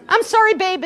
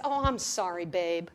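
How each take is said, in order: First: A brighter, louder "I'm sorry, babe" with weight on "sorry"; sweet apology. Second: Quick, low, throwaway "I'm sorry, babe"; offhand apology. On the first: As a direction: sell "I'm sorry, babe" as the nice everyday fix. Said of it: "is nice". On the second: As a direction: toss off "I'm sorry, babe" like it costs nothing. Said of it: "than just". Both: Retold or imitated.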